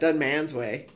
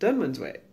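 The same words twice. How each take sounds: First: The name is said slowly and carefully. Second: The name is said quickly and run together. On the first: This is how the visitors said it. The speaker calls it wrong. "Not Dunman's Way" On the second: This is how the locals said it. The speaker calls it right. "they said it so fast and so differently"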